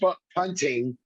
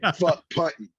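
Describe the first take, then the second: First: The final -ing of punting is fully pronounced. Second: The final -ing of punting is dropped. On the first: "didn't say" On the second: "there's no ing"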